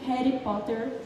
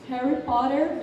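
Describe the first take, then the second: First: It is said with an Indian R. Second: It is said with an American R.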